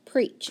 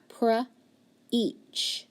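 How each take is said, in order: First: Said in the usual way. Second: Pre-each stretched into two slow parts; sounding out. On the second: Shown as a demonstration. Teacher to student, sounding out slowly. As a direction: segment pre-each before blending. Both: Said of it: "so when I do that".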